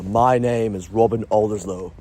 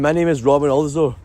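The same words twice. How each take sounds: First: It sounds posh, relaxed and confident. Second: It sounds hesitant, anxious and nervous. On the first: The speaker is at ease and self-assured. "immediately I sound so posh when I say that" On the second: The speaker is uneasy and holding back. "If I said that, then that's nervous"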